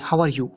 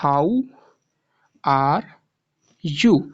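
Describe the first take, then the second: First: It is said quickly without a gap. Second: There is a gap after 'how'.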